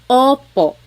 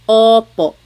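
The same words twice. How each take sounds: Both takes have the same delivery.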